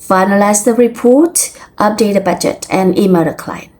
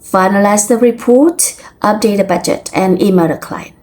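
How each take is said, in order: First: The list is read in a flat, neutral tune. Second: The list is read in a flat, neutral tune.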